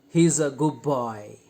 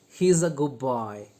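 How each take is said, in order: Both takes have the same delivery.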